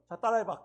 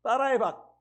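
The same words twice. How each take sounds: First: Said in the usual way. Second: 따라해봐 said louder and insistent; father repeating 따라해봐 more forcefully to his daughter; emphatic instruction. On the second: Shown as a demonstration. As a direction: push 따라해봐 harder. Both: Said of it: "교육을 시켰어요".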